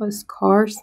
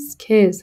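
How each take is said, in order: First: The vowel sounds like the one in 'car'. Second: The vowel sounds like the one in 'care'. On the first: The speaker calls it wrong. "این اسکارس نیست" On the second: The speaker calls it right. "سکیس هستش"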